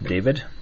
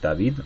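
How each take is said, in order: First: The name is pronounced the English way. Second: The name is pronounced the Spanish way.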